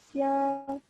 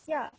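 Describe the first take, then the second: First: The pitch does not fall on the syllable. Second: The pitch falls on the syllable. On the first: It means blind or shrimp. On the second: It means down or below.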